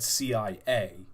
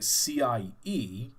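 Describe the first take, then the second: First: The last letter is said like "ay". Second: The last letter is said like "ee". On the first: "so it's technically pronounced A. So it should have been said C I A" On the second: "but I pronounced it C I E"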